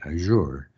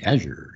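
First: It is pronounced the way French speakers say it. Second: It is pronounced the way Americans say it.

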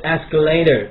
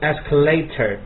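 First: It is said with an American accent. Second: It is said with a British accent. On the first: "美音是escalator" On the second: "音是escalator"

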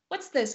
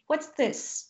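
First: The question is asked at a faster pace. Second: The question is asked at a slower pace.

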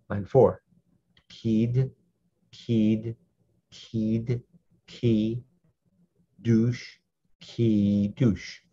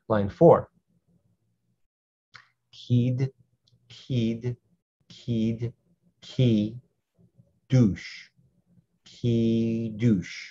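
No difference in how they are said.

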